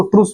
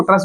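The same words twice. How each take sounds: First: "ट्रूस" with a long "oo" vowel; long-vowel pronunciation. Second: "ट्रस" with a short "uh" vowel; short-vowel pronunciation. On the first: Teacher showing students one common pronunciation, "ट्रूस" with long oo. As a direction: say "ट्रूस" to rhyme with "goose". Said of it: "बहुत सारे लोग इसको ट्रूस बोलते हैं". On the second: Teacher showing students the other pronunciation, "ट्रस" with short uh. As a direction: say "ट्रस" to rhyme with "bus". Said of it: "बहुत सारे लोग इसको ट्रस बोलते हैं". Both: Shown as a demonstration.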